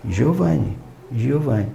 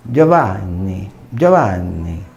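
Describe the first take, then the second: First: "Giovanni" com j brasileiro e n simples. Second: "Giovanni" grave e lento, com o nn estendido; Giovanni italiano. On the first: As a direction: diga "Giovanni" sem dobrar o n. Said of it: "eu vou dizer". (pronúncia brasileira de "Giovanni") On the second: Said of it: "Imagina se eu disser". (pronúncia italiana de "Giovanni") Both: Shown as a demonstration.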